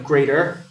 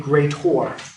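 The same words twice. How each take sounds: First: It ends with a plain 'er' sound. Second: It ends with a clear 'or' sound. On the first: "Instead of greater" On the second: "Greater is an or"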